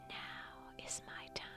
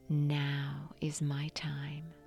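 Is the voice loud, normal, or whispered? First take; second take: whispered; normal. First: It is whispered without a voiced tone. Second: It is spoken at a normal conversational level. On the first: "Now whisper the affirmation" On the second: "in your natural speaking voice"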